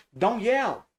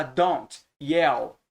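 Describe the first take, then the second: First: "don't yell" said as "don yell", T dropped; silent T. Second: "don't yell" with a released T closing "don't"; T pronounced. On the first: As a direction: slowly glide from "don" into "yell" without a T. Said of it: "A gente não pronuncia". ("don't yell" sem pronunciar o T) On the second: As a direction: slowly separate "don't" and "yell", sounding the T. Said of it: "não fala". ("don't yell" com o T bem pronunciado, devagar) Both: Shown as a demonstration.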